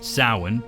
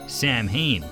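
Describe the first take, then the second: First: The name is said unlike its spelling. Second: The name is said as spelled, Sam Hain. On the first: The speaker calls it right. "It should be pronounced Samhain" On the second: The speaker calls it wrong. "which is mispronounced in the cartoon"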